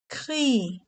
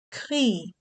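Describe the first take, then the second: First: Said in the usual way. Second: "Crie" said alone, slow and clear, with the i sound stretched; isolated teaching word. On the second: Shown as a demonstration. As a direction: spell out "Crie" so the i rings clearly. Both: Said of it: "avec le son I".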